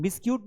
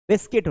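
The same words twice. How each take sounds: First: "बिस्क्यूट" with a sounded long u; mispronunciation. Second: "बिस्किट" with the u silent; correct pronunciation. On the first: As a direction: show the wrong "बिस्क्यूट", ending in -kyoot. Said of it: "बिस्क्यूट नहीं होता है". ("बिस्क्यूट" में लंबा यू, ग़लत उच्चारण) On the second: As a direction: say "बिस्किट", ending in a short -kit. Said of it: "बिस्किट होता है". ("बिस्किट" का सही उच्चारण, यू silent) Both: Shown as a demonstration.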